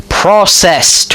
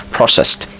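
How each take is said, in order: First: Processed higher, each syllable hit firmly; nailing the word. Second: Processed whispered under the breath; trying the word again. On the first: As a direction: say Processed with triumphant emphasis. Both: Shown as a demonstration. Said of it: "Why can't I not spell that word?".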